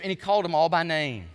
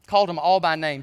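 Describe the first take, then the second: First: Said in the usual way. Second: Louder, leaning on Called in Called them all by name; emphatic repeat. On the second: Acted. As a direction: drive the point home on Called.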